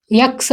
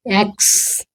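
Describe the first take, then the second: First: "यक्स" as yaks, y in front; wrong letter X. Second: "एक्स" as eks, long final hiss; correct letter X. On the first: Teacher rejecting the common misreading of X, wrong. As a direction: put a y glide before "यक्स". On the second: Teacher modelling X for pupils, correct reading. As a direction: open "एक्स" on a clean e. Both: Shown as a demonstration. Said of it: "यक्स नहीं".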